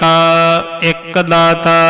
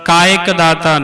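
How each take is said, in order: First: Each word is said separately and clearly. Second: The first two words are run together. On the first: The speaker calls it right. "वखरे वखरे नखेर नखेर के शब्द पढ़ने हैं" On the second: The speaker calls it wrong. "कायक दाता नहीं पढ़ना"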